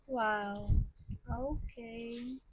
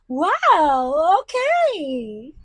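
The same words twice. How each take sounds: First: It sounds sad. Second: It sounds happy.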